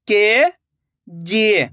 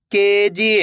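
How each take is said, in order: First: KG drawn out slowly, syllable by syllable; slow syllable split. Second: Said in the usual way. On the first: Shown as a demonstration. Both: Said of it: "मैं किस तरीके से".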